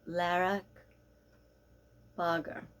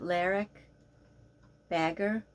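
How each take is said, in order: First: The surname is said with a Danish pronunciation. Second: The surname is said with an American pronunciation. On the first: "but I believe it's" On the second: "In America, we would pronounce it"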